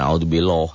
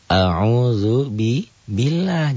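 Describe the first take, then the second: First: The L in Allah is heavy and thick. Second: The L in Allah is light and thin. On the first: The speaker calls it wrong. "Jangan a'udzu billah, jangan" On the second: The speaker calls it right. "yang tipis mana? Tarkik"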